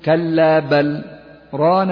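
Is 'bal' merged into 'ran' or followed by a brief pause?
pause. A brief pause after 'bal', with the l sound kept. "إذا سكتنا تقول"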